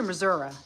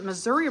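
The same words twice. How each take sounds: First: "Missouri" said with a final "uh" sound; Missouri ending in UH. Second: "Missouri" said with a final "ee" sound; Missouri ending in EE. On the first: Asking viewers how they say "Missouri", ending it in "uh". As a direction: say "Missouri" as mih-ZUR-uh. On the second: Asking viewers how they say "Missouri", ending it in "ee". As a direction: say "Missouri" as mih-ZUR-ee. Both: Shown as a demonstration. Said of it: "do you pronounce it".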